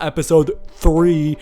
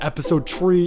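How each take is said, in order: First: Three is said with a standard accent. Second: Three is said with an Irish accent.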